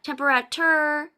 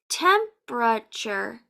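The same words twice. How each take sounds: First: The word is said with more than three syllables. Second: The word is said with three syllables. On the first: The speaker calls it wrong. "It's not temperature" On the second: The speaker calls it right. "This word has three syllables"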